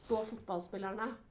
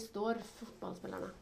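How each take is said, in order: First: The first word ends without an r sound. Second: The first word ends with an r sound. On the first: "hvis jeg skulle snakke det fort da, så ville jeg sagt" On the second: "Så dere har med R-en"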